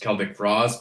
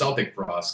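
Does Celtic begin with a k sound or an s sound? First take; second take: k sound; s sound. First: Celtic begins with a hard k sound. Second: Celtic begins with a soft s sound. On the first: This is the correct way to say the band name. The speaker calls it right. "obviously the proper way to say Celtic frost is" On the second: It was said like the basketball team's name. The speaker calls it wrong. "in a prairie kid like us, like it was Celtic frost because ... you knew about the Boston Celtics"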